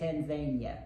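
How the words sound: It is said the way locals there pronounce it. "but there they say Tanzania"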